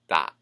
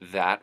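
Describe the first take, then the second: First: It begins with 'd' and drops the final T. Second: The word begins with a 'th' sound.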